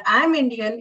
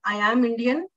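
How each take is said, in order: First: "I am" squeezed into "I'm"; contracted, unstressed "am"; weak form AM. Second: "am" as its own full word; clear, separate, stressed "am"; strong form AM. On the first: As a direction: let "am" lose its vowel and join "I". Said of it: "is the weak form". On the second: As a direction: say "I am" uncontracted, stressing "am". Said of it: "This is the strong form". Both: Shown as a demonstration.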